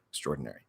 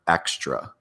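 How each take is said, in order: First: The word is said quickly. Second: The word is said very slowly.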